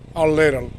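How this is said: It is said with an American pronunciation. The speaker calls it right. "Like good American English"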